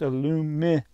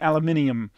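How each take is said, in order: First: The word ends with a short -num syllable. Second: The word ends with an extra -inium syllable. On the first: The speaker calls it right. "Num, not ninium" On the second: The speaker calls it wrong. "No inium in aluminium"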